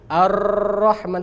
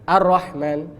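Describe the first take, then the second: First: The r is trilled for a long time. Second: The r is not trilled at all. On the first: "terlalu banyak" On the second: "Nggak ada takrirnya"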